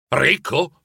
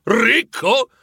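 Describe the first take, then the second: First: A first, level "Ricco?" in disbelief; scandalized. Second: "Ricco?" jumps much higher and louder; an indignant squawk of disbelief; scandalized outburst. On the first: Scrooge outraged at being called rich, scandalized. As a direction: repeat it as if shocked. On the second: Scrooge outraged at being called rich, scandalized outburst. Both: Acted. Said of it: "ribatté Scrooge scandalizzato".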